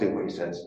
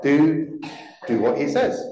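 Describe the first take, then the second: First: It is said in a grumpy, dismissive tone. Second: It is said in a warm, trusting tone. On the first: The request is being brushed off. "Do we read it as grumpy and dismiss it?" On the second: The speaker has full confidence in him. "Or do we read it as trusting in Jesus?"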